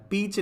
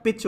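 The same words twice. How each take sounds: First: पीच with a drawn-out ee; wrong long vowel. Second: पिच with a brief i; short vowel. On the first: Teacher shows what is not said, long vowel. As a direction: stretch पीच as peeech. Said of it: "पीच नहीं होता". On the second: Teacher shows the correct sound, short vowel. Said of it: "पिच होता है". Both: Shown as a demonstration.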